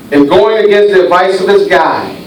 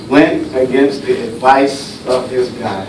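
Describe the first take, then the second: First: Said in the usual way. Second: Softer, lower repeat. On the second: Acted. Preacher repeats line for effect.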